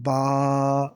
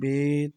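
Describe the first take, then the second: First: It is said with Arabic pronunciation, ending in a. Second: It is said with Urdu pronunciation, ending in e. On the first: The speaker calls it right. "बल्कि बा" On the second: The speaker calls it wrong. "Urdu तलफ़्फ़ुज़ से परहेज़ करें"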